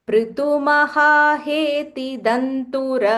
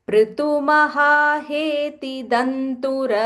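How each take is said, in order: Both takes have the same delivery.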